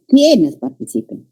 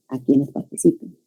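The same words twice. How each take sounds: First: Quienes stressed and falling, slow; wrong stress. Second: Quienes unstressed in a smooth even contour, softer; one melodic line. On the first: Teacher showing students the wrong reading. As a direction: mark Quienes as if it were a question. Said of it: "He dicho". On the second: Teacher showing students the right reading. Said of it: "Una sola línea melódica". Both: Shown as a demonstration.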